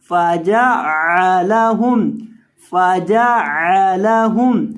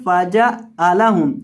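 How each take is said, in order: First: फजअलहुम with the ऐन pressed from mid-throat; ain from the throat. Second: फजअलहुम with the ऐन said as a plain vowel; common wrong reading. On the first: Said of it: "आइन को बीच हलक से अदा करेंगे". (ऐन को हलक से अदा करते हुए) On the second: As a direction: read फजअलहुम the careless way, no throat sound. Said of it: "फजअलहुम नहीं". (गलत तरीके से पढ़ा गया) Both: Shown as a demonstration.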